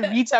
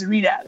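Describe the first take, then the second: First: The middle t is a crisp t sound. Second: The middle t is a soft d-like sound. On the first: This is how the British say it. "I say Rita because I pronounce the T" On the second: This is how Americans say it. "it's Rita"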